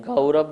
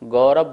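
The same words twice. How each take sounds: First: गौरव with a full औ diphthong, ga-u-rav; showing the pure गौरव. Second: गौरव with a plain ओ, like everyday speech; showing how गौरव is usually said; spoken o. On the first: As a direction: say गौरव with the proper Sanskrit औ. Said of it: "गौरव नहीं बोलते हैं". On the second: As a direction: say गौरव as gorav, colloquially. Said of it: "गौरव बोलते हैं". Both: Shown as a demonstration.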